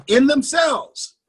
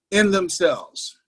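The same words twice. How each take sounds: First: "in themselves" drawn out slowly, each word weighted, pitched higher; slow emphatic stress. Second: Said in the usual way. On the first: Shown as a demonstration. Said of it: "In themselves, not in the stock market".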